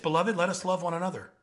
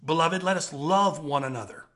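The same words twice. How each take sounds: First: It is read at a normal, quicker pace. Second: It is read slowly and deliberately.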